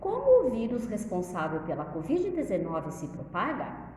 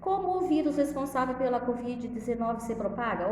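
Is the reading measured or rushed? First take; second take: measured; rushed. First: It is read slowly, with pauses and intonation. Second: It is read hastily, without careful pauses. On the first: The speaker calls it right. "Eu tenho que ler pausadamente" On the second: The speaker calls it wrong. "Eu vou ler de qualquer jeito"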